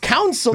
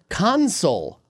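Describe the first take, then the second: First: The second syllable is a reduced 'sul'. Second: The second syllable is a full 'sole'. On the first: The speaker calls it wrong. "there's no you in the word" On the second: The speaker calls it right. "The word is console. C-O-N-S-O-L-E. S-O-L-E"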